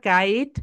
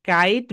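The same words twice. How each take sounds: No difference in how they are said.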